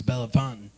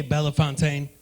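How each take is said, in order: First: Bellefontaine ending like "fountain"; local pronunciation. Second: Bellefontaine ending in a full "TAYN"; mispronounced town name. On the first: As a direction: say Bellefontaine as "bell-FON-tn". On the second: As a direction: say Bellefontaine as "bella-fon-TAYN". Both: Retold or imitated. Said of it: "say the name of your city wrong".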